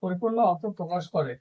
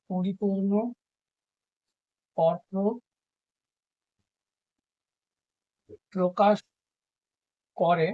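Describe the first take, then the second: First: Said in the usual way. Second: পরিপূর্ণ অর্থ প্রকাশ করে said one word at a time with long gaps; slow dictated phrase; dictation. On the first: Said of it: "dictation repeated whole". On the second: Shown as a demonstration. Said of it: "dictated one word at a time".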